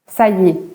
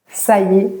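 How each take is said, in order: No difference in how they are said.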